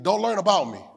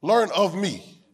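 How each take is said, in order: First: "about" stressed as the rejected word. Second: Slow, deliberate emphasis on "of"; stress on OF. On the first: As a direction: hit "about" to rule it out. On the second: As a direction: draw it out and land on "of". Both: Shown as a demonstration. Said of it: "I gotta say it again".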